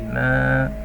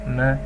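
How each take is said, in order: First: The vowel is long. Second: The vowel is short. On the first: "to give this meme its elongation because of this alif" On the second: "only this Mim Fatha without the inclusion of this harful uh, Maddi"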